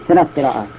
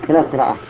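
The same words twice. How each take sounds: Both takes have the same delivery.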